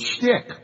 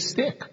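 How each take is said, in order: First: The word begins with an 'sh' sound. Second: The word begins with a plain 's' sound. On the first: The speaker calls it right. "people I know who like to use the word shtick" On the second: The speaker calls it wrong. "but they say stick"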